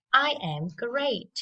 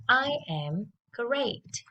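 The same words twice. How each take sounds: First: Said in the usual way. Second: Slow, clear drill sentence; slow it down so kids can copy; slow model. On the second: Shown as a demonstration. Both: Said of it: "let's listen and repeat after me".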